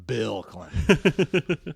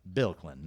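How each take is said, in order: First: "Bill" stretched out long in "Bill Clinton"; weighty, drawn-out "Bill" to mark the famous one; emphatic BILL. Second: Said in the usual way. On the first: Shown as a demonstration. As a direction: draw out "Bill" slowly, breaking into a laugh.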